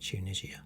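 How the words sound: The name is said with a British pronunciation. "whereas we pronounce it Tunisia"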